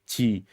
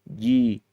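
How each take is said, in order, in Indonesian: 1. Konsonannya diucapkan dengan hembusan napas yang terdengar jelas. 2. Konsonannya diucapkan bersuara tegas, tanpa desah. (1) "Bukan hamas" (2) "Tapi ji"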